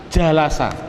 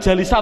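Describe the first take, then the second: First: The vowel after the L is a. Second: The vowel after the L is i. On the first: The speaker calls it right. "duduk bahasa Arabnya adalah jalasa" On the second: The speaker calls it wrong. "Bolehkah saya bilang jalisa atau jalusa? Jawabnya adalah tidak boleh"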